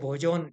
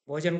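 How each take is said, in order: First: The second vowel is rounded to 'o'. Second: The second vowel is a plain short 'a'.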